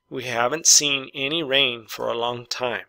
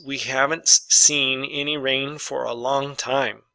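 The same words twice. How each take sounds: First: Said in the usual way. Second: Slow dictation reading. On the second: Shown as a demonstration. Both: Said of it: "Number six".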